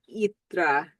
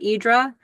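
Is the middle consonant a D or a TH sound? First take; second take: TH; D. First: The middle consonant is a TH sound. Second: The middle consonant is a D sound. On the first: This is closer to the local pronunciation. The speaker calls it right. "it's not really a D. I think it's like a the" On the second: This is the version given to Americans. The speaker calls it wrong. "when they tell Americans how to pronounce it, they say Hydra"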